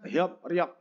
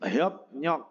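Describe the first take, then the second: First: The syllables join with a p then r sound. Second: The syllables join with a p then n sound. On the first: "aslinya kan hiop riok" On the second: "Menjadi hiop nyok"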